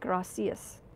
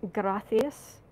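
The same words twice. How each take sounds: First: The c is said with a plain s sound. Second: The c is said with a lisped th sound. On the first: "Mexico you get" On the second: "in Spain you get"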